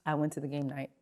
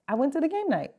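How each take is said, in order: First: Quiet repeat. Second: Higher, stressed on game, a shocked admission; emphatic confession. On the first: Repeating to the audience, quietly resigned. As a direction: mutter it again, resigned. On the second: Telling the audience she really went, emphatic. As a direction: say it like you can't believe you did it. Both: Real, not acted.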